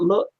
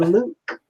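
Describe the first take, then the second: First: It has a short standard oo vowel. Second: It has a long northern oo vowel.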